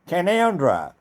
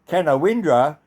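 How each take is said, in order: First: It is said with three syllables, shortened. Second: It is said with four syllables, as spelled. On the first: "which is also pronounced as Canoundra" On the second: "if you write down the word Canowindra"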